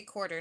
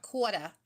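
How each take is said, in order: First: Said in the usual way. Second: "quarter" as "kwawta" in Jersey accent; mock New Jersey pronunciation of "quarter"; fake Jersey accent. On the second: Shown as a demonstration. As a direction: drop both r's, fake Jersey style. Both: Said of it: "I can do the fake Jersey accent".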